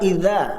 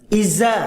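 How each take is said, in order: First: The dh sound is pronounced as in Arabic. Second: The dh sound becomes a plain z sound.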